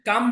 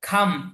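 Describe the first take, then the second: First: The first k sound is plain, without breath. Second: The first k sound has a strong breath. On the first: The speaker calls it wrong. "কাম বলবো না" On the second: The speaker calls it right. "আমরা কি বলবো? খাম।"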